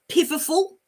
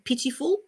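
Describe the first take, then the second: First: The middle consonant is a V sound. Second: The middle consonant is a T sound. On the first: The speaker calls it wrong. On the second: The speaker calls it right.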